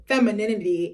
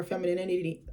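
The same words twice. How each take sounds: First: Said in the usual way. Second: "femininity" with a tangled, extra syllable near the end; stumbled pronunciation. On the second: Real, not acted. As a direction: trip over the last syllables of "femininity". Stumbles on word, then repeats it.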